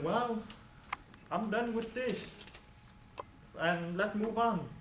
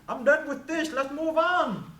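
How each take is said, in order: First: It is said at a soft, ordinary volume. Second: It is said at a loud, strong volume.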